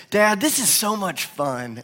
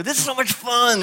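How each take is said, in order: First: Retelling the son's line, slower, a little higher; quoting the little boy's words gently; son's delight. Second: Put-on higher, head-shaking little-boy sing-song on fun; son's cute delivery. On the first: Retold or imitated. Dad retells his son's words, mildly childlike. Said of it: "he'll kinda make this little face". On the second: Dad shows how his little son says it, higher and cute. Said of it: "he does it like that".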